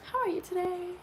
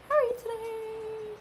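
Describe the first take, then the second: First: Said in the usual way. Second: High, slow, singsong hello; drawn-out cutesy greeting; sing-song greeting. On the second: Pretend. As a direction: stretch it out sweetly like greeting a child. Greeting repeated in put-on voice.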